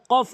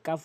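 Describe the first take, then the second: First: কফ with a heavy back q; correct deep q. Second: কাফ with a thin front k; forbidden light k. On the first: Teacher saying which letter to use, deep-q কফ. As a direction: strike কফ at the tongue root, vowel dark. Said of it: "উচ্চারণ করতে হবে". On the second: Teacher saying which letter to avoid, light-k কাফ. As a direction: say কাফ lightly with an open vowel. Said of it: "উচ্চারণ করা যাবে না". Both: Shown as a demonstration.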